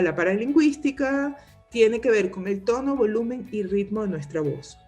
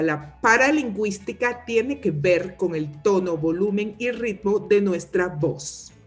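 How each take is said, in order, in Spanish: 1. Las palabras se pronuncian con fluidez y de forma natural. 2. Cada palabra se marca con una articulación exagerada.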